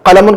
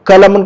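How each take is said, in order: First: It starts with a deep back-of-throat q sound. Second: It starts with a plain front k sound. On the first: It means pen. "कलमुन का मतलब pen" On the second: It means wound. "कलमुन का मतलब जख्म"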